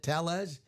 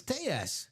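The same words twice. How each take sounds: First: Tellez with a clear L sound; anglicized name. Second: Tejas with a Y sound in the middle; Spanish pronunciation. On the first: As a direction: say Tellez as English TELL-ez. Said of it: "he pronounces it Tellez". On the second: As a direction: say Tejas like TAY-ess, no L. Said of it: "is the Y sound". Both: Shown as a demonstration.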